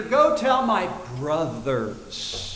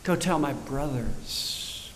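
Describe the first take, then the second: First: Slow, gentle and loving; tender. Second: Much softer and lower, slow; affectionate. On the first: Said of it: "He says to Mary". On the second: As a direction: let the love show in it. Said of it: "A term of affection". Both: Retold or imitated.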